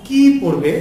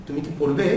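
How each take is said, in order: First: What-question leaning hard on a long "কি". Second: Quick short "কি", rising on "পড়বে"; softly asked yes-or-no question, "কি" unstressed. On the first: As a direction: stretch and punch "কি", drop on "পড়বে". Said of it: "দীর্ঘ করে উচ্চারণ করতে হবে". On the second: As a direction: clip "কি" short, lift "পড়বে". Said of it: "ছোট করে দ্রুত উচ্চারণ করতে হবে". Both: Shown as a demonstration.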